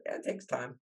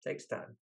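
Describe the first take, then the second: First: Said in the usual way. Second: Much softer, lower repeat of "takes time"; fading echo. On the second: Real, not acted. Repeating to the host that it takes time, fading softly. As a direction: let "takes time" fade to near nothing.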